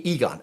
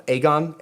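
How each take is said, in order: First: Aegon opening on an EE sound; first-guess pronunciation. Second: Aegon opening on an AY sound; self-corrected pronunciation. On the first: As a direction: say Aegon as "EE-gon". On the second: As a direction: say Aegon as "AY-gon". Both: Real, not acted. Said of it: "Correct me if I'm wrong".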